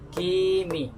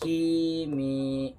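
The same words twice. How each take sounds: First: The final vowel is cut short. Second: The final vowel is held long. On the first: The speaker calls it wrong. "membaca salah begini" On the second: The speaker calls it right. "maka dua-duanya dipanjangkan"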